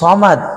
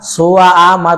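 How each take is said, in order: First: The s-letter is one smooth sound. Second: The s-letter is split into two syllables. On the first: The speaker calls it right. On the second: The speaker calls it wrong.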